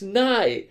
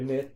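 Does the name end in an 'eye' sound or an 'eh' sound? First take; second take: eye; eh. First: The name ends with an 'eye' vowel sound. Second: The name ends with a short 'eh' vowel sound. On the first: The speaker calls it right. "it's Nye" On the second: The speaker calls it wrong. "they'd do the "neh" sound instead"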